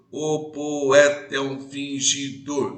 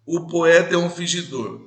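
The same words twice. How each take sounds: First: "O poeta é um fingidor" slow and sung, leaning on the third syllable "e" of "poeta"; stress on the third syllable. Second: Said in the usual way. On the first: Shown as a demonstration. Teacher to class, scanning the verse in a slow singsong. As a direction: chant "O poeta é um fingidor" slowly, beating out the syllables. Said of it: "a terceira sílaba é mais forte". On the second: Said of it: "você vai perceber que a terceira sílaba é mais forte".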